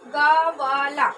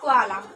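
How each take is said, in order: First: A full vowel separates the g and v sounds. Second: The g and v sounds join with no vowel. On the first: The speaker calls it wrong. "इसका उच्चारण क्या होगा? गवाला।" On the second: The speaker calls it right. "गवाला से क्या हो गया? ग्वाला।"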